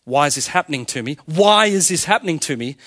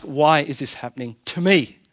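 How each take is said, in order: First: Protesting question, WHY hit first and the rest run together; stress on WHY. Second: TO ME set apart after a small pause, falling; lower, deliberate question that lands on TO ME; stress on TO ME. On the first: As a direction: complain "WHY is this happening to me", leaning hard on WHY. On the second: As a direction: ask "why is this happening... TO ME", measured and inquiring. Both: Shown as a demonstration. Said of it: "You hear the difference?".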